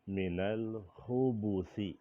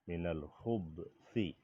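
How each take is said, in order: First: The 'b' is followed by a short 'u' vowel. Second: The 'b' is followed directly by 's', no vowel. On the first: It means male jinn. "dengan memdomahkan ba" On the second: It means evil. "dengan mensukunkan ba"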